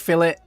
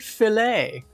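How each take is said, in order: First: The word is said in a plain English style. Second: The word is said in a French style. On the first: The speaker calls it right. "Nah, it's fish fillet" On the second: The speaker calls it wrong. "How elegantly French"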